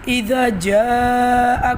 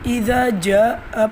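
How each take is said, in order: First: The long vowel is stretched for four counts. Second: The long vowel is cut short. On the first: The speaker calls it right. "मद को आपने four counts खींचना था" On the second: The speaker calls it wrong. "आपने इसको ... पढ़ लिया"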